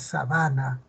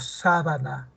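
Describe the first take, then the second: First: The stress is on the second syllable. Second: The stress is on the first syllable. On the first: It means an open plain or grassland. "se desplazó a la va" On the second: It means a bed sheet. "la antepenúltima sílaba"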